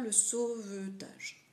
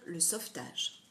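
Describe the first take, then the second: First: The middle e sound is fully pronounced. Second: The middle e sound is dropped. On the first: The speaker calls it wrong. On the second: The speaker calls it right. "quand je vais le dire rapidement, je vais dire"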